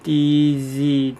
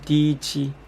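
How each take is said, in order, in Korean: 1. 가운데 자음은 계속 울리는 유성 마찰음이에요. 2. 가운데 자음은 파열에 가까운 파찰음이에요. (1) "이런 유성음" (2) "약간 파열음에 가깝게 혹은 지읒에 가깝게"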